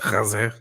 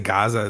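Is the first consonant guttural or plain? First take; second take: guttural; plain. First: The first consonant is a throaty guttural sound. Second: The first consonant is a plain hard g. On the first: "They say Gaza" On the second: "they don't say Gaza"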